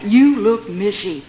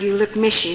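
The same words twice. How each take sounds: First: "You look mishy" stretched slowly, word by word; slow, weighty stress on each word of "You look mishy"; drawn-out emphasis. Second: Said in the usual way. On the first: Shown as a demonstration. Saying repeated slowly for emphasis.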